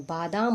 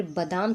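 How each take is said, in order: First: बादाम with a long first "baa"; two long vowels in बादाम; correct vowel demo. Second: बादाम with a short first "ba"; quick first vowel in बादाम; wrong vowel demo. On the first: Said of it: "बादाम होता है". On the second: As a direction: say बादाम as "ba-daam". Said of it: "बादाम थोड़ी होता है". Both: Shown as a demonstration.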